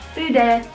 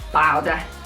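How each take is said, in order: First: The word is said with a French accent. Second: The word is said with a Liverpool accent. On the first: The speaker calls it right. "That's how they said it on Google" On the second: The speaker calls it wrong. "I'm from Liverpool, so I'd be like"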